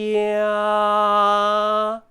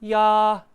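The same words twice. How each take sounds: First: The syllable is said slowly and drawn out. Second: The syllable is said at normal speed.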